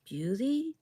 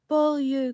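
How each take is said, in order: First: The name is said as English Bewley. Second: The name is given a French pronunciation. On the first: This is how the local residents said it. "all the residents pronounced it Bewley, as to rhyme with a singer's name" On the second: The name is treated as genuinely French. "an actual French name"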